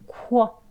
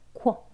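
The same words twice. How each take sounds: First: The 'u' glide is drawn out long. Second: The 'u' glide is said short and quick. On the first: "지금은 이제 길게 코, 쿠 소리를 길게 넣죠" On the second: "나중에는"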